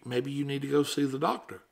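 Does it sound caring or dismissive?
caring. It sounds warm and concerned.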